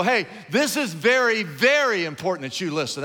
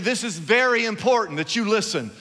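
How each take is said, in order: First: "very, very" stressed with rising emphasis; double very stressed. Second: Said in the usual way. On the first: Shown as a demonstration. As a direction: lean hard on "very, very". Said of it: "even more important than very important". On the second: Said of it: "If I say to you".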